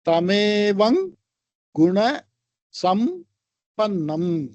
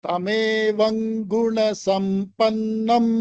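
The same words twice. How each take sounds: First: The words are separated by short pauses. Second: The words run together without pauses. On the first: "தனித்தனியா சொல்ல பிரிச்சோம்னா" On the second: "சேர்த்து சொன்னா"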